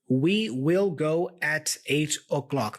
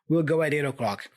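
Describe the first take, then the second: First: Both words 'we will' are said in full. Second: 'We will' is shortened to one syllable, 'we'll'. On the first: "That's the sentence" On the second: "I am abbreviating we will to will"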